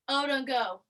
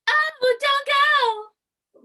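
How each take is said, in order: First: It is said flatly, without enthusiasm. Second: It is said with lots of enthusiasm.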